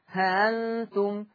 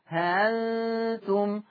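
First: The hamza is softened between a glottal stop and alif. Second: The hamza is softened between a glottal stop and alif.

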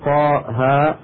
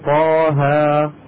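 First: Each syllable ends with a glottal stop. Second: Each syllable ends on an open long vowel. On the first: The speaker calls it wrong. "فلا يقال" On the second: The speaker calls it right. "وإنما يقال"

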